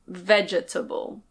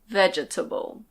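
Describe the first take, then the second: First: Every syllable of the word is pronounced. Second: Every syllable of the word is pronounced.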